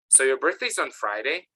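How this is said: The voice rises at the end. The speaker is checking the information. "the intonation goes up"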